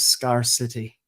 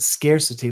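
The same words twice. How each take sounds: First: The first syllable sounds like the word scar. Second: The first syllable sounds like the word scarce. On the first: The speaker calls it wrong. "like two words, scar and city" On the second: The speaker calls it right. "like scarce"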